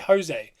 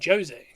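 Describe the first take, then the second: First: The name is said with Spanish pronunciation. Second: The name is said with Portuguese pronunciation. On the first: The speaker calls it wrong. "that's incorrect because that's Spanish Mexican" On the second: The speaker calls it right. "No, no, I mean Jose"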